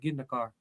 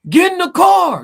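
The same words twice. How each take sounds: First: It is said more calmly and quietly. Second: It is shouted loudly and intensely.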